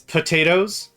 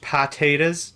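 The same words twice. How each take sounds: First: The first syllable sounds like 'po'. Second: The first syllable sounds like 'pah'. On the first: "so some it's potatoes" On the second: "Some it's pa... P A H"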